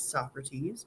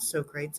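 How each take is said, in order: First: The name is said with three syllables. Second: The name is said with two syllables. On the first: The speaker calls it right. "it's Socrates" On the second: The speaker calls it wrong. "his name is not Socrates"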